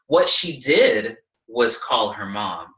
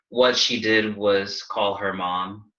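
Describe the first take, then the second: First: It is said with lively, building intonation. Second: It is said flatly with little pitch movement. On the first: The speaker calls it right. "you want to add intonation to your sentence" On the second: The speaker calls it wrong. "like all totally flat"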